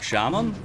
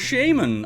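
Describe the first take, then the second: First: The first syllable does not sound like shame. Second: The first syllable sounds like the word shame. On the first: The speaker calls it wrong. "I always thought it was like shaman" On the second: The speaker calls it right. "for shame, you're a shaman"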